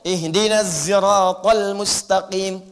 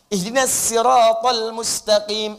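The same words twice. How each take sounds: First: Siratal begins with a z sound. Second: Siratal begins with a plain s sound. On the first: "nggak bisa sod, pakai zai" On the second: "Ada yang nggak bisa sin pakai sod"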